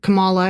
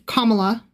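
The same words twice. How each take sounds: First: The name is said in an anglicized way. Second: The name is said in a native-like way. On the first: The name is being mispronounced. The speaker calls it wrong. "mispronouncing Kamala's name ... he would say it Kamala" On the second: The name is being pronounced correctly. The speaker calls it right. "and I would say Kamala"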